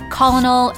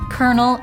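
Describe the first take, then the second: First: It is pronounced the way it looks spelled. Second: It is pronounced in the standard established way. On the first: The speaker calls it wrong. "you might determine the pronunciation in your head" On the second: The speaker calls it right. "it's actually"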